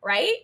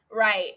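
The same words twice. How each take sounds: First: "Right?" rising as a question. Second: "Right." falling as an answer; confirming. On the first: Podcaster checking that nobody will stop her, questioning rise on "Right?". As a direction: lift "Right?" upward, seeking agreement. Asks, then answers herself. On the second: Podcaster agreeing with herself, confirming fall on "Right.". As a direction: drop "Right." firmly downward. Answers her own question. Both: Real, not acted.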